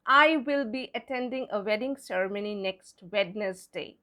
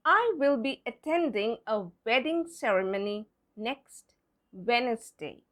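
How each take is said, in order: First: Wednesday with the D sounded, WED-nes-day; wrong spelling pronunciation. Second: Wednesday said WENZ-day within the sentence; correct silent-D pronunciation. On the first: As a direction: voice the silent D of Wednesday in the sentence. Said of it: "That's wrong". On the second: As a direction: keep the first D in Wednesday silent. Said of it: "to see how it fits there". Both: Shown as a demonstration.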